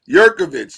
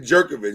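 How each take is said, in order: First: The name begins with a Y sound. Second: The name begins with a J sound. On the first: The speaker calls it right. "Yurkovich, yes" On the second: The speaker calls it wrong. "I always want to say Jerkovich, and I know it's not Jer"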